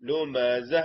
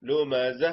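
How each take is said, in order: The two takes are said the same way.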